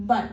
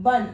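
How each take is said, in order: First: ബൻ said as one syllable, ba plus nasal an; tanween ban. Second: ബൻ said as one joined syllable; tanween ban. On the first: Teacher models the sound for learners, clearly. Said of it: "ബൻ എന്ന് നമ്മൾ എഴുതുന്നു". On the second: Teacher joins the sounds for learners, clearly. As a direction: blend it back into ബൻ. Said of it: "ബായും കൂടി ചേരുമ്പോൾ". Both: Shown as a demonstration.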